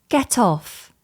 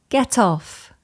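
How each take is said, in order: No difference in how they are said.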